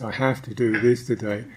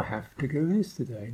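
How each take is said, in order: First: It is said heavily, with firm pressure. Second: It is said lightly, without urgency. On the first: The task feels compulsory and final. "And immediately you feel the pressure" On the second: The task feels casual and easy. "Can you say, oh"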